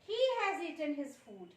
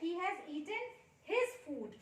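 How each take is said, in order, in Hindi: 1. Stress शब्द 'he' पर पड़ता है। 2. स्ट्रेस शब्द 'his' पर पड़ता है। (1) "उसने अपना खाना खाया है, दूसरों ने नहीं खाया है" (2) "उसने अपना खाना खाया है, किसी और का नहीं खाया है"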